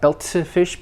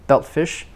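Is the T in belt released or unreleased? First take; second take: released; unreleased. First: The T in belt is audibly released. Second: The T in belt is held, not released. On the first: The speaker calls it wrong. "not belt fish" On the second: The speaker calls it right. "T in belt is not released"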